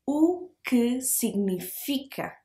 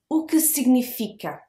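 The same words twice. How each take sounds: First: O que significa said slowly with a soft drop; teacher models O que significa for learners, slowly; slow model phrase. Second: Said in the usual way. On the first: Shown as a demonstration. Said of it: "it has a little drop". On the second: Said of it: "think about significa as, like, it has a little drop".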